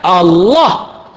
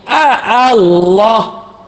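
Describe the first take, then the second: First: The word starts directly with one 'a' sound. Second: An extra 'a' sound comes before the word. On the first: The speaker calls it right. "Sepatutnya Allah" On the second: The speaker calls it wrong. "tambah satu huruf alif di hadapan Allah"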